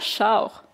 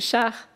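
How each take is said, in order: First: It is said with a Quebec French accent. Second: It is said with a European French accent. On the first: The speaker calls it wrong. "et pas char à la québécoise" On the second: The speaker calls it right. "à la française"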